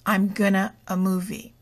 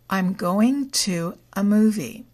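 First: The words 'going to' are reduced to 'gonna'. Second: The words 'going to' are said in full. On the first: The speaker calls it wrong. "We would never say" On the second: The speaker calls it right. "going to in this sentence is the present continuous verb tense"

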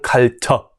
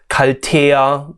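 First: The ending is reduced to a short 'a' sound. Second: The ending is pronounced as a full syllable. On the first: The speaker calls it right. "그냥 갈터. 이거는 뭔가 짧은 아 같은 소리가 들리는 거예요" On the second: The speaker calls it wrong. "더 이상 갈테야 카페 아니고요"

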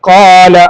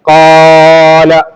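First: The first vowel is held for two beats. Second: The first vowel is stretched far too long. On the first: The speaker calls it right. "ഒരു അലിഫിന്റെ സൈസ് മാത്രം" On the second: The speaker calls it wrong. "അതിനേക്കാൾ അധികരിപ്പിക്കാനോ ചുരുക്കാനോ പാടില്ല. ഖാല, അങ്ങനെ ഇത് വായിക്കാൻ പറ്റൂല"

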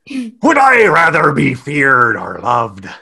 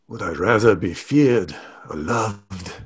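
First: It is spoken in a sarcastic pirate accent. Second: It is spoken in a mock French accent. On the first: "Sarcastic pirate" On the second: "I don't know if that was French"

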